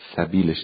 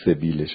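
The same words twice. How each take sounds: First: The first vowel is an 'a' sound. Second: The first vowel is an 'i' sound. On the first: It means his way or manner. The speaker calls it right. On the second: It means his mustache. The speaker calls it wrong.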